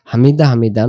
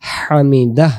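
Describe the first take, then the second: First: হামিদা ending on a bare vowel; wrong, no h. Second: হামিদাহ with the h breathed out clearly; clear final h. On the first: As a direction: cut হামিদা off with no h. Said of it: "না". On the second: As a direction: finish হামিদাহ on an audible h. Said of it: "এমন করে". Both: Shown as a demonstration.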